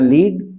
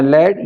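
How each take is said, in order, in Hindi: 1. स्वर लंबा है, 'seed' की तरह। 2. स्वर छोटा है, 'bed' की तरह। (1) "ये वर्ब है" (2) "ये नाउन है"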